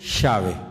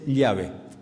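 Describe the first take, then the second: First: The middle consonant sounds like English 'sh'. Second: The middle consonant sounds like English 'y'.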